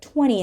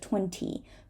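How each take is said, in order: First: The T sound after the N is dropped. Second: The T sound after the N is pronounced. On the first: "we often hold the T after an N" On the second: "instead of"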